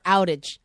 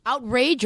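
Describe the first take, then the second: First: Said in the usual way. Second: Slow, louder echo of his "Outrage"; echoed mispronunciation. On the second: Retold or imitated. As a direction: say "Outrage" with an added R, out-RAGE. Repeats his mispronounced word as question.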